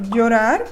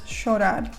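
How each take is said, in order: First: The 'll' is not pronounced like 'sh'. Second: The 'll' is pronounced like 'sh'.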